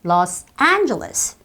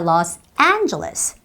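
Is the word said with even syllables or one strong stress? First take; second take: strong stress; strong stress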